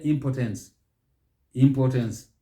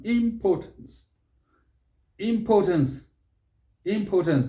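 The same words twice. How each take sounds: First: "impotence" as im-po-TENS; wrong pronunciation. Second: "Importance" as im-PAW-təns, pitched high; correct pronunciation. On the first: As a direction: clip the PO and give a full TENS in "impotence". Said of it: "which is completely wrong". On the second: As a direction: give "Importance" a long stressed PAW. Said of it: "Here, you might even hear impotence". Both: Shown as a demonstration.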